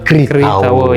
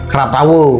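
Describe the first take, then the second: First: The first syllable is said as 'kri'. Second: The first syllable is said as 'kra'. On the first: The speaker calls it right. "Dibaca ri. ... dibacanya Kritawu" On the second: The speaker calls it wrong. "atau Kratawu"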